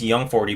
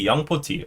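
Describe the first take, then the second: First: It is said with an English pronunciation. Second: It is said with a Korean pronunciation. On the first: "young forty means young forty" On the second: "that's the Korean pronunciation. So the right way to say it is young poti"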